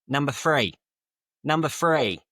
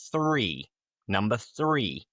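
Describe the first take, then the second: First: "three" said with an F, like "free"; Cockney TH as F. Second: Said in the usual way. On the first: Shown as a demonstration. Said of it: "they just use an F". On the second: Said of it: "One classic example would be".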